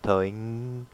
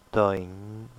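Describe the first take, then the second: First: Toing with a full hard ng at the end; the incorrect toing with the ng sounded; wrong toing. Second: Toing with a nasal vowel and no ng at the end; correct toing. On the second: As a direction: drop the final ng of toing. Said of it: "you don't say ng in the end of the word". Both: Shown as a demonstration.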